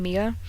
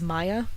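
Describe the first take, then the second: First: The first vowel sounds like 'ee'. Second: The first vowel sounds like 'eye'. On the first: This is how the speaker says the name. "I pronounce her name Mia" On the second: This is how many other people say the name. "a lot of people pronounce this name as Maya"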